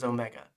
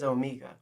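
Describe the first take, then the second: First: "Omega" with a short E, oh-MEG-uh; common pronunciation. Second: "Omega" with a long EE, oh-MEE-guh; her accented pronunciation. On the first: Shown as a demonstration. Host showing how everyone else says it, "Omega" as oh-MEG-uh. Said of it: "Everyone else says Omega". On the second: Retold or imitated. Host quoting how the character says it, "Omega" as oh-MEE-guh. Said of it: "So she says Omega".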